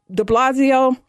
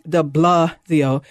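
First: Said in the usual way. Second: De Blasio stretched very slowly and pitched lower; drawn-out mocking repeat. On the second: Shown as a demonstration. Radio host mocks the mayor's name, dragging out de Blasio slowly and low.

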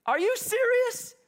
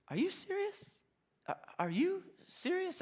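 First: Much higher and slow, drawn out; emphatic disbelief. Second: Higher, softer, incredulous; stunned disbelief. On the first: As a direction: stretch it out, truly amazed. Local repeats, now emphatic. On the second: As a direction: ask it in quiet disbelief, as if the question is absurd. Local stunned by the question. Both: Retold or imitated.

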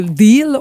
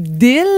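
First: Said in the usual way. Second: "deal" with a short French i and clear l; no English accent on "deal"; French pronunciation. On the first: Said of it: "au lieu de deal". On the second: Shown as a demonstration. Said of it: "au lieu d'avoir l'accent anglais".

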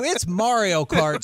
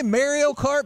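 First: "Mario" as MAR-ee-oh, open "ah"; high, drawn-out correction, "Mario" with an AH; corrected pronunciation. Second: "Mario" with first vowel as in "marry"; high-pitched, teasing echo of "Mario" as MARE-ee-oh; mimicked Canadian pronunciation. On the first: Shown as a demonstration. Host corrects Canadian guest's Mario, corrected pronunciation. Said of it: "Did you say Mario Kart". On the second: Host teases Canadian guest about his Mario, mimicked pronunciation. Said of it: "It's Mario Kart, sir".

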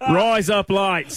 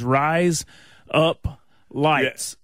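First: Slow, higher-pitched Aussie impression; exaggerated Australian accent, drawn out; mock Australian accent. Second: Southern American drawl on the vowels; plain Southern US pronunciation; Southern accent. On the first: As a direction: stretch it out like an Australian saying "razor blades". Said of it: "sounds like an Australian saying razor blades". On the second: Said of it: "in my Southern accent". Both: Shown as a demonstration.

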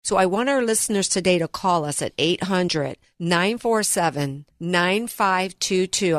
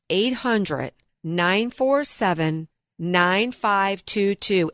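First: Said in the usual way. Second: Slow, deliberate phone number; over enunciating. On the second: Shown as a demonstration. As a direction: spell the digits out slowly. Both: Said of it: "I'm gonna say that one more time slowly".

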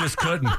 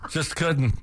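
First: High squeak of a laugh on the words; laughing it out despite himself. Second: Said in the usual way. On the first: Real, not acted. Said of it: "I'm not laughing".

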